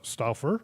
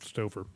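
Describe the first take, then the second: First: The name is said unlike the lasagna brand. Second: The name is said like the lasagna brand. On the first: "I'm not sure, Elizabeth, how you pronounce your last name" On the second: "I should probably pronounce it like the lasagna"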